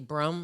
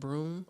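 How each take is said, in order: First: The vowel is short, in a Wisconsin accent. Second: The vowel is long, in a standard accent. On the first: "Wisconsin, they say brum" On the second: "instead of broom"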